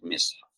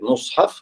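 First: The first vowel is a front i. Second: The first vowel is a rounded u. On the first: "каср" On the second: "Дамма"

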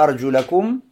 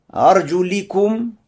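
First: The vowel after 'arjul' is 'a'. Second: The vowel after 'arjul' is 'i'. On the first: The feet are to be washed. "когда фатха арджулякум" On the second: The feet are to be wiped. "Арджуликум с кесрой"

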